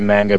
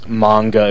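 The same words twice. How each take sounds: First: It is pronounced with English vowels. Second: It is pronounced with Japanese vowels. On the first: The speaker calls it wrong. "I just say manga because that's the way I say it. I know that that's not really necessarily correct" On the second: The speaker calls it right. "technically is manga if you pronounce it in the proper Japanese"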